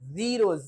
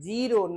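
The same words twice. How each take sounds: First: The word begins with a 'z' sound. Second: The word begins with a 'j' sound. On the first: The speaker calls it right. "जीरो ये बिंदी लगती है तो ज" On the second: The speaker calls it wrong. "आप पढ़ते हैं जीरो नहीं"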